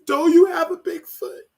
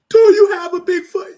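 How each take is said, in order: First: High, tearful retelling of the question; higher, choked-up quote; teary quote. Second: High, loud crying cry of the question; real sobbing, louder and higher; sobbing shout. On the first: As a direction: ask it through tears. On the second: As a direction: wail it out through sobs. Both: Real, not acted. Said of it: "I was not planning on crying".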